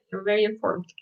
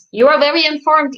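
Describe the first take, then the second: First: Much softer, dropped-down repeat. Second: Louder, higher mock-impressed praise; teasing praise. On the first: Acted. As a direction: say it softly, half to yourself. Teasing friend, softer repeat. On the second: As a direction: ham up being impressed to tease Isa. Teasing friend, then repeat.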